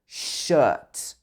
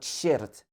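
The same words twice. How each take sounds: First: The r sound is silent in the word. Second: The r sound is pronounced in the word. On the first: The speaker calls it right. "It should be shirt" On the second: The speaker calls it wrong. "you don't say the r in this word"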